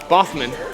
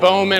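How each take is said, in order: First: The middle has an F-like sound. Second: The middle has no F-like sound. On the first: The speaker calls it right. "it's an F sound" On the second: The speaker calls it wrong. "Nobody says it right. It's always like Bowman"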